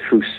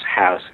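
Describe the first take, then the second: First: The vowel sounds like 'oo', a stereotyped Canadian accent. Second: The vowel is an 'aw' sound, an American accent. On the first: "Americans somehow heard as hoos" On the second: "we had to change to AW words, so it's house"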